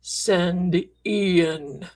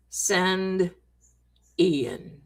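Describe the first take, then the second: First: Lower, slow, ghostly voice from a recorder; hint of a spooky spirit voice, drawn out; eerie recorder voice. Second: Slow, with Ian sinking much lower; eerie recorder voice, deeper. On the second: Retold or imitated. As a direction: let the name drop into a ghostly low. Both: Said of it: "this voice comes out and says".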